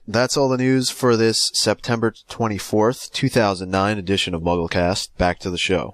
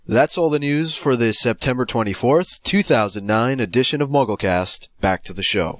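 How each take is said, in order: First: It is said with little energy. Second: It is said with more energy.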